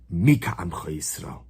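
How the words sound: It is said as a statement, falling.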